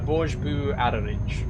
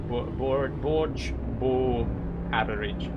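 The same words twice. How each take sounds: First: The second word is said like 'boo'. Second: The second word is said like 'bo'. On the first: "I'm probably pronouncing that wrong" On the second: "So maybe that boo is pronounced bo"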